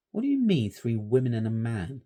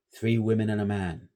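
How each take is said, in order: First: Stanley turning to challenge the shepherd; incredulous boy. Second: Shepherd naming the ghosts gravely; ominous old shepherd. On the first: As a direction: throw the words back at him. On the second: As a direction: let it land darkly. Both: A narrator's reading.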